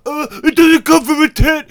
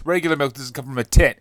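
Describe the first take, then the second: First: High, loud sneering impression of a critic; whiny high mockery, much louder; mock snob voice. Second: Said in the usual way. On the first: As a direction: sneer it like a know-it-all. Mocking a coconut milk critic.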